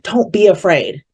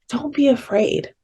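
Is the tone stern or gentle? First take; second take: stern; gentle. First: It is said in a stern, commanding tone. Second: It is said in a gentle, comforting tone. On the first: It is a rebuke for being afraid. The speaker calls it wrong. "sometimes when we hear sermons taught on, like, you know, fear" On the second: It is a comforting invitation. The speaker calls it right. "I hear the tone totally different in scripture"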